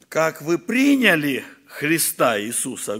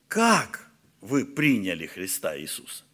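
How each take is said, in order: First: It is read with a statement intonation. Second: It is said with a question intonation. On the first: It states how the faith was received. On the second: It asks the listener how the faith was received.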